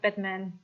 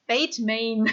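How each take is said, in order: First: "Batman" with short A, as in bat; usual Batman pronunciation. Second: "Batman" said as BAYT-mayn; corrected pronunciation. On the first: Streamer ruling out the other name, "Batman" pronounced BAT-man. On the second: Streamer clarifying the name, "Batman" pronounced BAYT-mayn. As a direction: say "Batman" with long A sounds, like Bateman. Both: Shown as a demonstration. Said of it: "Not Batman".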